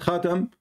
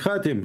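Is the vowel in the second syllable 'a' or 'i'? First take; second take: a; i. First: The second syllable has an 'a' vowel. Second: The second syllable has an 'i' vowel. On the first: The speaker calls it wrong. "not Khatim" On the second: The speaker calls it right. "with the kasra"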